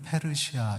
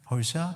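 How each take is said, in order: First: It is said with four syllables, pe-reu-si-a. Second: It is said with three syllables, peo-si-a. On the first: This is the usual Korean reading of the name. "우리는 페르시아 이렇게 읽지만" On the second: This is closer to the original pronunciation of the name. "발음이 퍼시아"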